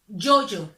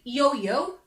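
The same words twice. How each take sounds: First: It starts with a 'j'-like consonant sound. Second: It starts with a soft English-like 'y' glide. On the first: The speaker calls it right. "we say yo-yo" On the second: The speaker calls it wrong. "so we don't say yo-yo"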